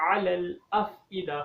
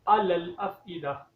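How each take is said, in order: First: अफ़इदा with a clear ain from the throat, slow; correct ain sound. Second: अफ़इदा said with a hamza instead of ain, slow; wrong hamza sound. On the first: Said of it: "आइन की sound आनी चाहिए". (अफ़इदा में आइन की सही आवाज़) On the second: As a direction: show the common mistake in अफ़इदा. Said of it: "ये गलत है". (अफ़इदा में आइन की जगह हमज़ा, गलत तरीका) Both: Shown as a demonstration.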